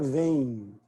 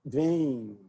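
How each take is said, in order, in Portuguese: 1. A vogal nasal termina com um glide 'ee'. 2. A vogal nasal termina com um glide 'ee'.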